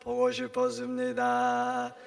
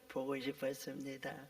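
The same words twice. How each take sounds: First: It is said warmly, with heartfelt feeling. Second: It is said plainly, without special feeling.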